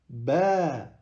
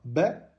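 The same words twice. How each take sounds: First: The vowel is held for two beats. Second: The vowel is short. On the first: The speaker calls it right. "mais on dit ... avec un mad bil elif" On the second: The speaker calls it wrong. "Donc on ne dit pas"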